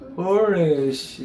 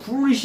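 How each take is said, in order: First: The word is said in a drowsy, slurred way. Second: The word is said crisply and clearly. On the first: The speaker calls it right. "이렇게 내 눈동자가 풀린 것처럼 자다 있는 것처럼" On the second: The speaker calls it wrong. "또렷또렷하게 해서 foolish 이러면 안 돼요"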